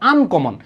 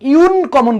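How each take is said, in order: First: The word begins with an 'uh' sound. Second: The word begins with a 'yoo' sound. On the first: The speaker calls it right. "আমরা কি বলি?" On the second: The speaker calls it wrong. "So আমরা এখানে ইউ ইউন কমন বলি না"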